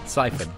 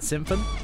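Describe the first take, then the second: First: The first syllable has no m sound. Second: The first syllable has an m sound. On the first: The speaker calls it right. "that's it. I'll say it correctly from now on" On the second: The speaker calls it wrong. "Every time I say Sim"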